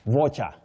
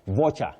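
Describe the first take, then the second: The two takes are said the same way.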